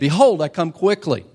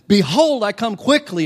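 First: It is said with somewhat more excitement. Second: It is said loudly, with a lot of energy.

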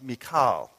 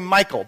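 First: The name is said with its Hebrew pronunciation. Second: The name sounds like the English man's name. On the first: The speaker calls it right. "the Hebrew pronunciation of that M-I-C-H-A-L is Michal" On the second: The speaker calls it wrong. "Some people say Michael, but then it sounds like David married a dude"

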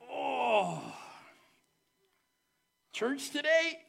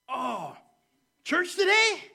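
First: It sounds tired and reluctant. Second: It sounds glad and excited.

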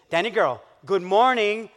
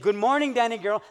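First: It is said in a lower, authoritative voice. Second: It is said in his normal voice.

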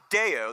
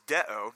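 First: The word sounds like the Day-O song call. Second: The word is said plainly, as a normal word. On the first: The speaker calls it wrong. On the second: The speaker calls it right.

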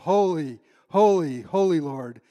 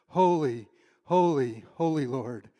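First: It is said loudly. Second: It is said quietly.

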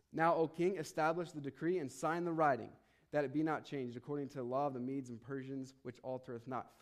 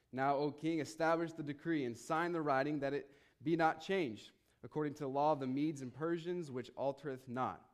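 The two takes are said the same way.

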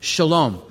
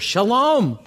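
First: The word is said in a plain English accent. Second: The word is said with a Hebrew-flavored accent. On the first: "You can say it with me"

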